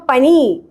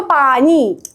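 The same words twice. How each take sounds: First: പനി with a short first vowel; Hindi-speaker pani. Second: പാനി with a long, stretched first aa; Malayali paani. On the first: Showing how Indians say it, short-vowelled പനി. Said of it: "ഇന്ത്യക്കാര് പറയുമ്പോ". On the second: Showing how Malayalis say it, long-vowelled പാനി. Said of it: "മലയാളികൾ പറയുമ്പോ". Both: Shown as a demonstration.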